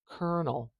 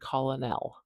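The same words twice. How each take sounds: First: It is said with an 'er' vowel sound. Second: It is said the way it is spelled. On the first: The speaker calls it right. "Listen to the way I say it. ... We're going to put the er vowel in here" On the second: The speaker calls it wrong. "We do not say colonel, as you might expect"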